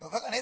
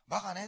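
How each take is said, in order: First: It is said in a sharp, harsh tone. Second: It is said in a soft, gentle tone. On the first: It stabs and wounds the listener. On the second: It is harmless and does not hurt.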